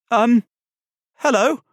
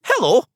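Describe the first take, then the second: First: High, loud, hesitant greeting rising at the end; startled boy's questioning hello; startled squeak. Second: High, loud Scottish greeting with a falling end; confident, high-pitched Scottish hello; Scottish accent. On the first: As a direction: squeak it out, caught off guard. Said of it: "a much more startled squeak than he was expecting". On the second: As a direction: greet him as a Scottish teddy bear. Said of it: "a voice with a soft Scottish accent". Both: A narrator's reading.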